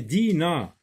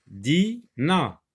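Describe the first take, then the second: First: Said in the usual way. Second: DINA split as DI, pause, NA; découpage en syllabes. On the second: Shown as a demonstration. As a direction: sound out DINA in two high, separate syllables. (« Dina » détaché : Di... na) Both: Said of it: "Où est Di?".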